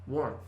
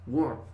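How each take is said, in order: First: The word is said as one single syllable. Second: The word is said as one single syllable.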